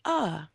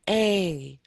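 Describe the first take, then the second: First: The article is said as a short 'uh'. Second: The article is said with a full 'ay' vowel. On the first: This is the form used when speaking at normal pace. "When I'm speaking like normal, I usually say uh" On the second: This is the form used when reading slowly. "When we are reading in sentences and we are reading really slowly, I usually say a"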